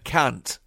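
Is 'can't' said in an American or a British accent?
American. It has a short American 'a' vowel. "instead of can't"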